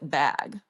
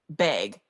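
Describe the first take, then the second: First: The vowel is the standard open 'a' sound. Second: The vowel is Minnesotan, sounding close to 'beg'. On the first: This is the pronunciation the speaker learned. "I have learned to pronounce it bag" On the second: This is the speaker's natural way of saying it. "naturally I say bag"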